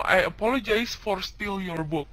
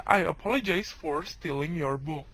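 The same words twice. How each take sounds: First: Slow, deliberate wrong form; wrong example. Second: Said in the usual way. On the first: Shown as a demonstration. Teacher showing students the wrong version to avoid. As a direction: read out the mistake slowly. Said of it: "Lo nggak boleh ngomong".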